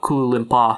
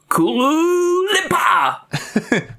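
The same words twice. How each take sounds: First: It is said plainly, with little feeling. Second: It is said with lots of feeling and energy.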